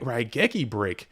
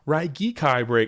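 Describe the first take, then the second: First: The name ends with a 'key' sound. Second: The name ends with a 'kai' sound.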